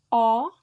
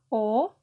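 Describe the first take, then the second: First: The vowel is an open O. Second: The vowel is a closed O. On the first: "la O aperta" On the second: "la O chiusa"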